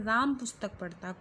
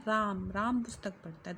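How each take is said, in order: First: Said in the usual way. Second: राम said twice, the first one set apart and the second pushed hard; stress on राम. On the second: Shown as a demonstration. Teacher stresses the doer राम to show students the active voice. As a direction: punch राम, the doer, at the start. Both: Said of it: "यहाँ पे जोर दे के बोला गया है".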